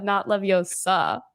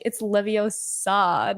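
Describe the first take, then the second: First: Slow wrong Leviosa, dragging the final SA; mock the mispronounced LevioSA; drawn-out last syllable on Leviosa; Hermione/character. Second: Slow, careful correction with the O of Leviosa stressed; Hermione/character. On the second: Retold or imitated. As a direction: spell out LeviOsa slowly. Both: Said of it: "Hermione's like".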